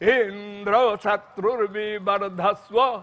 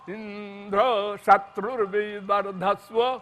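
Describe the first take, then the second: First: The high pitch falls on the first syllable. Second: The high pitch falls on the last syllable. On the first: "आद्युदात्त" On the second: "अंत्योदात्त कर दिया"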